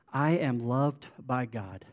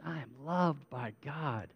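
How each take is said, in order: First: Said in the usual way. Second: Soft, heartfelt declaration; meaning it. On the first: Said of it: "Just say". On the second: Shown as a demonstration. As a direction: say it sincerely, softer, like you mean it. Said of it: "say it like you mean it".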